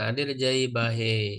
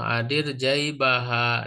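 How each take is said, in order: First: The final vowel is tilted toward 'e'. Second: The final vowel is a plain open 'a'.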